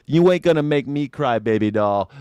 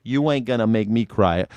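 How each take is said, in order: First: Higher, louder swagger; louder tough-guy boast. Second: Said in the usual way. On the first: Pretend. Streamer boasting to chat, louder swagger. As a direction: punch it with bravado.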